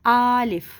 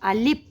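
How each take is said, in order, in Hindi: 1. पहला स्वर लंबा खींचा गया है। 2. आख़िरी आवाज़ p है, f नहीं। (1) "इसको इतना लंबा खींच देते हैं कि ये आलिफ बन जाता है" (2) "फ़ा की जगह हम क्या कहते हैं? पा कह देते हैं"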